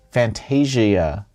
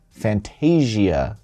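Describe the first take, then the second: No difference in how they are said.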